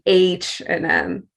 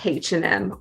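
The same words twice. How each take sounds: First: The letter H begins without an h sound. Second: The letter H begins with an h sound. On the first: "we're making more of like an A sound" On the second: "as opposed to"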